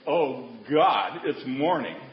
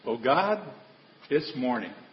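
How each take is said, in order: First: It sounds weary and full of dread. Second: It sounds glad and full of praise.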